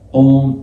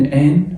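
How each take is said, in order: First: It is said with an o and half n. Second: It is said with an open a and full n. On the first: The speaker calls it right. "الآ خليها أون ... والإن ننطق نصها كده على خفيف" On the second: The speaker calls it wrong. "تنطقها مثلا الآ مع الإن آن ... لا"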